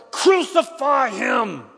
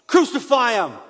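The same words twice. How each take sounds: First: Drawn-out, full-voiced high roar; louder mob shout. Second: Loud, high cry of a mob; crowd's shout. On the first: Crowd insists to Pilate all the louder, long roaring shout. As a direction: stretch every syllable into a huge shout. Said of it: "shouted all the louder". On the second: Crowd answers Pilate about the prisoner, shouting. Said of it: "they shouted". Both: A narrator's reading.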